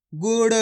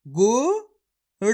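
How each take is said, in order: First: Said in the usual way. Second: गुड़ drawn out very slowly, syllable by syllable; slow syllable-by-syllable reading. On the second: Shown as a demonstration. Teacher sounding out गुड़ slowly for children. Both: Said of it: "मेरे तरीके पे गौर करना है".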